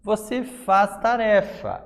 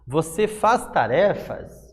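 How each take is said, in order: First: The voice falls at the end like a statement. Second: The voice rises at the end like a question. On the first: It is a statement. "é uma afirmação" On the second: It is a question. "É uma pergunta"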